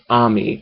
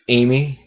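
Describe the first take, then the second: First: The name begins with an 'ah' sound. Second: The name begins with an 'ay' sound. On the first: This is how others say it. "pronounces it as Ami" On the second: This is the speaker's own way of saying it. "but I pronounce it with the A"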